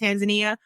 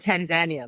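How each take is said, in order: First: It is said with a usual English pronunciation. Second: It is said with the local Swahili pronunciation. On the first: The speaker calls it wrong. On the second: The speaker calls it right.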